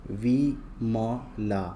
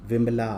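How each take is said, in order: First: Slow, drawn-out वी-म-ला; syllable by syllable. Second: Said in the usual way. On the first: Shown as a demonstration. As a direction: sound out विमला in separate long syllables. Word broken up before blending.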